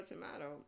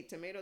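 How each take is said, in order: First: "tomato" with an open A in the middle; alternate tomato. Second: "tomato" with a long AY in the middle; American tomato. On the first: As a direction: say "tomato" as to-MAH-to, pitch falling. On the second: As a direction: say "tomato" as to-MAY-to. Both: Shown as a demonstration. Tomato, tomato pronunciation contrast.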